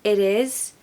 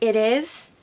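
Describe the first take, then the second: No difference in how they are said.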